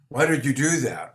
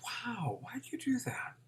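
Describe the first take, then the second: First: It sounds accusing, like a prosecutor. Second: It sounds curious, with childlike wonder.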